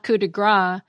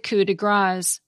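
First: The final consonant of grâce is silent. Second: The final consonant of grâce is pronounced. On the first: It means a strike of fat. The speaker calls it wrong. "It's not coup de gras, which literally means a strike of fat" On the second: It means the finishing touch. The speaker calls it right. "because grâce is spelled G-R-A-C-E"

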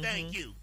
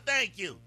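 First: It is said politely, without attitude. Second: It is said with a sassy attitude.

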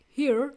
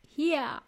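First: It has an American accent with a strong R. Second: It has an Australian accent without a strong R. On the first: "the American accent with a strong R pronunciation" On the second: "in Australia, it is here"

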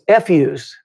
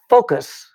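First: The word is pronounced like an expletive. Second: The word is pronounced as standard focus. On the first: "It sounded like what you think I'm saying" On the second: "What she was trying to say was focus"

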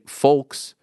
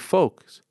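First: The L sound is clearly pronounced. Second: The L sound is silent. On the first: The speaker calls it wrong. "you don't say folks" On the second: The speaker calls it right. "you say folks"

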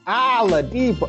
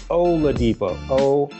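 First: The name begins with a vowel other than 'oh'. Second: The name begins with a clear 'oh' sound. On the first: The speaker calls it wrong. "I have a problem with the way Ken says Oladipo. He says" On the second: The speaker calls it right. "It's Oladipo. O-L-A"

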